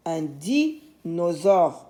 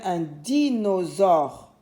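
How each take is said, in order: First: Dinosaure slowly, pause after "di"; sounded-out word. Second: Dinosaure joined up, syllables a little drawn out; sounded-out word. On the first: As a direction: split "dinosaure" after its first syllable. (dinosaure lentement, pause après di) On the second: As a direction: say "dinosaure" carefully as one word. (dinosaure articulé avec soin) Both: Shown as a demonstration. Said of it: "par la première syllabe".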